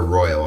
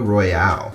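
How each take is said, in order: First: The word is pronounced in a plain, ordinary way. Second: The word is pronounced in an exaggerated, drawn-out way. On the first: The speaker calls it right. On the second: The speaker calls it wrong.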